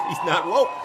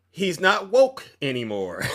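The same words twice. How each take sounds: First: Words through a laugh; real laughter. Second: Said in the usual way. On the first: Real, not acted. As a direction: chuckle out the punchline. Repeating punchline while laughing.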